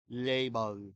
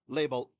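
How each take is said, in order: First: Both L sounds are soft and dark. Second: Both L sounds are clear, tongue tip forward. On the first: "what if we made them both the soft one? ... It sounds almost French" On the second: "If you attack the second one with your tongue in the same place as the beginning ... Sounds a little bit robotic"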